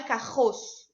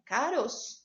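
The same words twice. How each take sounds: First: "carroço" with a hard guttural R in place of the tap; wrong strong R. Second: Softly said "caroço" with a light tapped R; correct soft R. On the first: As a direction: mispronounce it on purpose as "carroço", throaty R. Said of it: "não tem um som forte". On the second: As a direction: give "caroço" its weak single-flap R. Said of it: "Caroço não tem um som forte". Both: Shown as a demonstration.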